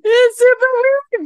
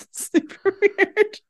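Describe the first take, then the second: First: Excited exclamation. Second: Amused, slow aside. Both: Real, not acted.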